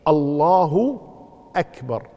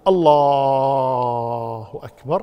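First: No sound is drawn out beyond normal length. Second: The l sound in the first word is drawn out. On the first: "لكن الصحيح الله أكبر" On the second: "لو مد لفظ الجلالة اللام في لفظ الجلالة ما يضر"

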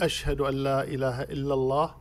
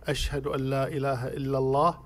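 Both takes have the same delivery.

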